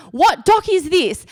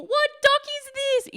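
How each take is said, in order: First: Higher-pitched, slow question to a stranger; acted urgent question. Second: Very high, held-back mock yell. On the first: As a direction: stretch it out, pitched up, as if stopping a passer-by. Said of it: "run up to someone, ask". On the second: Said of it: "yelling out the window to people".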